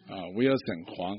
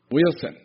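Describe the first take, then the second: First: Said in the usual way. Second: Loud call-out. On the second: Real, not acted. Pastor calling the student up, loud announcement. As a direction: call the name out loud and high.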